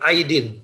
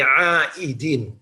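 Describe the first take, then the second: First: The first two vowels run together without a break. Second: A glottal catch splits the first two vowels. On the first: The speaker calls it wrong. "bukan aidin" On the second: The speaker calls it right. "tapi aidin. Ain, alif, hamzah"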